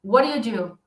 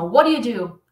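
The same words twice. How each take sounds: Both takes have the same delivery.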